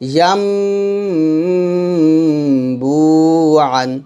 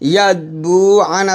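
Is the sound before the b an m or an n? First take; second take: m; n. First: An m sound comes before the b. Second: A clear n sound comes before the b. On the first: The speaker calls it right. "এখানে পড়তে হবে" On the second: The speaker calls it wrong. "ইয়া বু আন আছে"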